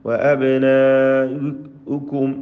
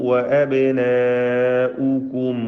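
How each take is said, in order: The two takes are said the same way.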